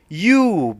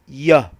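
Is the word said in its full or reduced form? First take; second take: full; reduced. First: The word is said with a full vowel. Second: The word is said with a reduced vowel. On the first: "You is a strong form" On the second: "Y is a weak form"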